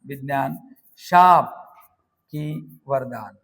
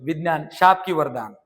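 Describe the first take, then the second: First: "विज्ञान, शाप की वरदान" in separate pieces, "शाप" punched loud; word-by-word dictation. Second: Said in the usual way. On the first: Shown as a demonstration. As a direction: pause around a loud "शाप", then slow "की वरदान". Teacher dictates example word by word. ("विज्ञान, शाप की वरदान" थांबून, "शाप" जोरात)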